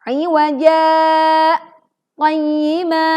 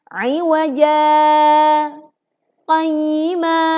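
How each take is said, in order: First: Iwaja stops abruptly with a glottal catch. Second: Iwaja is lengthened, fades out, then briefly pauses. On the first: The speaker calls it wrong. "Berikut bacaan yang keliru" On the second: The speaker calls it right.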